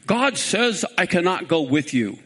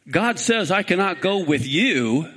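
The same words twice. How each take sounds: First: Said in the usual way. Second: Slow down and lean on "you"; "you" drawn out and stressed at the end. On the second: Shown as a demonstration. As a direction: land the weight on "you", implying someone else could. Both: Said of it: "where you put your accent in a sentence".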